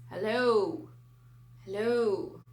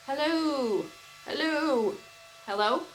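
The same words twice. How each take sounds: First: Loud hello through a spinning fan; talking into a fan. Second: Loud, high hellos into a fast fan; fan alien voice. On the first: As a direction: call into the fan blades for a robot voice. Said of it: "Speak into fans and have, like, robotic alien voices". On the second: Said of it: "still don't sound like an alien". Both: Pretend.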